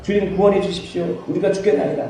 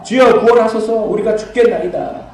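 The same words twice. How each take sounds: First: Said in the usual way. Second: Cried out loud and high, pleading; desperate cry for help. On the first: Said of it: "주님한테 가서". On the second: Retold or imitated. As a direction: call out to the Lord like the panicked disciples. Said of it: "제자들이 나와".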